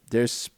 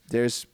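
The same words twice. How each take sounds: The two takes are said the same way.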